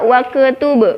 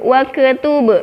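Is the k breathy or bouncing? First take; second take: bouncing; bouncing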